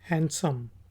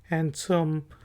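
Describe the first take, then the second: Both takes have the same delivery.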